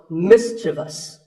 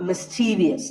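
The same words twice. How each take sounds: First: The word ends in 'vus' with no extra syllable. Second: An extra 'ee' syllable is added after the v. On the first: The speaker calls it right. "The last syllable is just vus" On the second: The speaker calls it wrong. "There is no I after the V"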